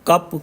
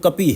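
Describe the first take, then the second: First: The word ends on the consonant, without final vowel. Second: The word ends with a final i vowel. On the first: "आखिरी अक्षर पे छोटी की मात्रा का उच्चारण नहीं होता" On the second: "हिंदी के हिसाब से देखें तो कपी है"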